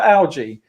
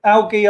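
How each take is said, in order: First: "algae" with a soft g, as AL-jee. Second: "algae" with a hard g, as AL-ghee. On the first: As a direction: say "algae" with a j sound. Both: Shown as a demonstration. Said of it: "if one word is right".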